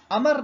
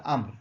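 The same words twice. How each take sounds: First: امر said wrongly as "amar", with a vowel between م and ر; the common mistaken reading "amar"; wrong pronunciation. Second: امر said "amr", م and ر joined with no vowel between; the proper Arabic reading "amr"; correct pronunciation. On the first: Teacher shows students the wrong reading, امر as "amar". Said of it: "امر نہیں پڑھیے گا اسے". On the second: Teacher gives students the right reading, امر as "amr". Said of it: "اس کو پڑھا جائے گا امر". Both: Shown as a demonstration.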